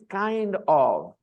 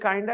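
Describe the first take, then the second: First: Both words are said fully and separately. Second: The words are blended into one reduced word. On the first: It sounds formal. "formal is kind of" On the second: It sounds casual. "kinda is also casual"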